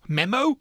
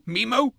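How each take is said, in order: First: "Memo" with a short e as in met, rising; "Memo" meh-mo. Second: "Memo" with a long e as in me, rising; "Memo" mee-mo. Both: Shown as a demonstration. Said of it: "However you want to pronounce it".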